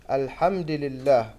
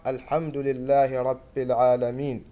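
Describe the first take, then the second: First: الحمد لله said the common wrong way; common mistake. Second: الحمد لله رب العالمين read with correct vowels. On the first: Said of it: "الخطأ الشائع في هذه الآية". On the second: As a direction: demonstrate the right way to say الحمد لله. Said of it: "والصح". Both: Shown as a demonstration.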